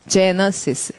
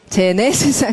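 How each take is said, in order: First: The second vowel sounds like a reduced 'uh'. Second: The second vowel sounds like a clear 'eh'. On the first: The speaker calls it right. "제네가 아니라 제너시스" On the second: The speaker calls it wrong. "그건 그렇진 않습니다"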